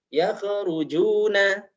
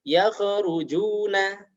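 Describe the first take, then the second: First: The kh is bounced with an echoing release. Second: The kh is bounced with an echoing release.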